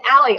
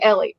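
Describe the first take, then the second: First: The first vowel sounds like the one in 'cat'. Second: The first vowel sounds like the one in 'bed'. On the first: The speaker calls it wrong. "You said Allie. I'm no, I'm not Allie" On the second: The speaker calls it right. "I'm Ellie"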